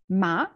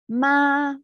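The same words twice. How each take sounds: First: The pitch rises, and the syllable is shorter. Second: The pitch stays high, level and long. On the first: "a bit rising, shorter" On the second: "high and long"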